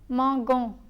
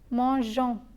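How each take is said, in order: First: The G is a hard sound, as in 'go'. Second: The G is a soft 'zh' sound. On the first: The stem is spelled without the added E. The speaker calls it wrong. "M-A-N-G-O-N-S is pronounced as mangon" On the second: The stem is spelled with an E after the G. The speaker calls it right. "To retain the j sound"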